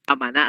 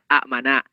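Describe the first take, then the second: First: It begins with one long 'aa' vowel. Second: A glottal stop splits two short vowels. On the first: This is the form actually used. "Huruf hamzah kedua diganti menjadi alif" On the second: This is the underlying original form.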